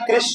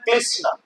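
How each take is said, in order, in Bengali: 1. নামটি স্থানীয় ওড়িয়া উচ্চারণে বলা হয়েছে। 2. নামটি চীনা ধাঁচের উচ্চারণে বলা হয়েছে। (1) "ଚାଇନାର ଲୋକ ସେମାନେ କୃଷ୍ଣ କହିପାରୁନା" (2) "ସେମାନେ କହୁଛନ୍ତି"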